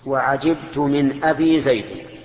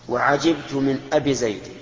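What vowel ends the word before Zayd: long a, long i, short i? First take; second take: long i; short i. First: The word before Zayd ends in long i. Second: The word before Zayd ends in short i. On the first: The word is inflected with letters. "هذا الإسماء، رفعناها بالواو ونصبناها بالألف وجرناها بالياء" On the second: The word is inflected with short vowels. "هذا النقص"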